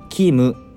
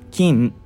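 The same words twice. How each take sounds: First: The final m is released with a vowel. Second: The word ends with the lips fully closed. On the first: The speaker calls it wrong. "普通だったらこのキムっていうのもキムっていうふうに言うと思う" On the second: The speaker calls it right. "口を完全に閉じる感じなんですよ"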